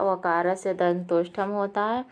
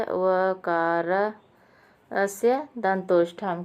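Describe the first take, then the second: First: Said in the usual way. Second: वकारस्य दंतोष्ठम drawn out syllable by syllable; deliberate chant-like reading of वकारस्य दंतोष्ठम; slow recitation. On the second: Shown as a demonstration. Reciting the sutra slowly.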